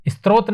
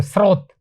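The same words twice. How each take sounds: First: स्रोत said "istrot", with a t; wrong pronunciation. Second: स्रोत said "srot", no t after s; correct pronunciation. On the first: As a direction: show the mistake, स्रोत starting "ist". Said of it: "नहीं है". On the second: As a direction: read स्रोत as one syllable, s straight into r. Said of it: "आप सही पढ़ोगे". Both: Shown as a demonstration.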